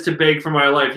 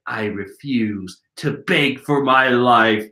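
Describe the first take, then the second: First: Said in the usual way. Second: Slow, lower, measured refusal; defiant captive. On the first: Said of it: "as soon as he says". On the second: Acted. Captive refusing to beg, slow low acted voice. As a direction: declare it slowly and firmly in character. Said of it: "Korasaki's like".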